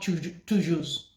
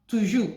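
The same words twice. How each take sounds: First: The final consonant is pronounced. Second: The final consonant is silent. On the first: The speaker calls it wrong. "is not" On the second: The speaker calls it right. "you don't pronounce the last letter"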